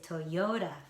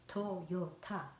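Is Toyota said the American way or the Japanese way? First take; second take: American; Japanese. First: Stress falls on yo, with a flapped middle t. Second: Even syllables, with a clear unflapped t sound. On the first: "American way, yo has the um, stress to yo ... flapped sound ra. So I say Toyota" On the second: "in my mind, it's Toyota"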